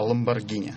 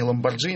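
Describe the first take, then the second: First: The middle consonant is a hard 'g' sound. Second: The middle consonant is a soft 'dzh' sound. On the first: The speaker calls it right. "а Ламборгини" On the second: The speaker calls it wrong. "не Ламборджини нужно говорить"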